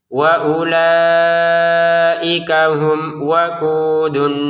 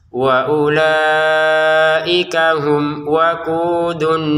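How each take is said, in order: No difference in how they are said.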